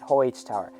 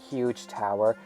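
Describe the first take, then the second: First: The name is said like the word 'hoyt'. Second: The name is said like the word 'huge'. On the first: This is the speaker's preferred way to say it. "I'm calling it Hoyt Tower" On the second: This is how some other people say it. "some people pronounce it Huge Tower"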